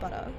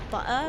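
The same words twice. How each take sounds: First: The T is a soft D sound. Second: The T is a glottal stop. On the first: This is the Australian way. "it's like a soft it's like a D sound" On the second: This is the English way, not the Australian one. "the glottal stop on T's like the English do, so it's not like butter"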